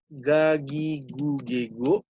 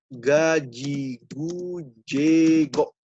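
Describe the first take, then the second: First: Every g is hard, including before i and e. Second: The g before i and e is soft. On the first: "Ini cara bahasa ini Indonesia" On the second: "ini Prancis"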